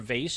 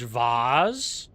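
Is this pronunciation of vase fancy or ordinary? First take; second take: ordinary; fancy. First: The word is said in an ordinary, everyday way. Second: The word is said in a fancy, unusual way.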